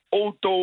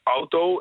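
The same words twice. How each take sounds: First: The first vowel is a plain o sound. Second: The first vowel is an au diphthong. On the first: It follows the French way of saying it. The speaker calls it wrong. "wordt als een O-klank uitgesproken" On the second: It keeps the native Dutch way of saying it. The speaker calls it right. "gebruik ook die au-klank als AU"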